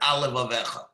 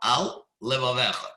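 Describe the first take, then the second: First: The two words run together without a pause. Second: A brief pause separates the two words. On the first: It sounds like a single word. The speaker calls it wrong. "if you read it too quickly, it will sound like alevavecha, one big word" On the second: The two separate words are kept distinct. The speaker calls it right. "I made a brief pause after al"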